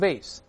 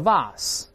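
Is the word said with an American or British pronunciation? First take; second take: American; British. First: It is said with an American pronunciation. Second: It is said with a British pronunciation. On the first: "在美式发音读成vase 或者vase" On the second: "英国人会读成vase 或者vase"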